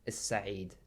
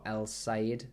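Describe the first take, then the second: First: The L is dropped and the S is doubled. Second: The article keeps its L sound before the S. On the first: The speaker calls it right. "it's actually pronounced in Arabic Makhbaz Is-Sa'id" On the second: The speaker calls it wrong. "in English we've got El-Said bakery, you might read it"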